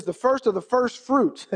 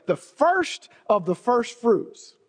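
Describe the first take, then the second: First: Said in the usual way. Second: "first" leaned on, the whole phrase slowed right down; slow emphasis. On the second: Shown as a demonstration. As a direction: savour each "first" slowly. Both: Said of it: "interesting that God put it that way".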